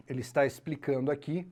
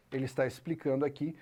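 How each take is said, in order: Both takes have the same delivery.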